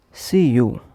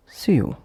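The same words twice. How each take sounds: First: SEE and YOU said as two separate words. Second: SEE YOU run together as one short word; linked words. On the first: Teacher showing learners word connection, separate words. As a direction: say "see", then "you", each word full. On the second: Teacher showing learners word connection, linked words. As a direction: glide from "see" straight into "you". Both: Shown as a demonstration. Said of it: "would become".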